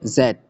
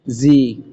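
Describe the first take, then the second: First: The letter is said as zed, British style. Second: The letter is said as zee, American style.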